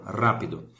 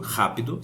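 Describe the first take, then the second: First: The first R is a rolled, tapped sound. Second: The first R is a throaty, h-like sound. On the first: "se faz aqui com R" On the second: "o R no Brasil tem o som do J aqui"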